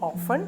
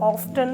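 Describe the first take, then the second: First: The t sound is silent. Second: The t sound is pronounced. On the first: This is the common pronunciation. "Commonly പറയുന്ന pronunciation ആണ് ഓഫൺ" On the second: Some people say it this way. "ചിലർ ഓഫ്റ്റൺ എന്നും പറയും, അതും കുഴപ്പമില്ല"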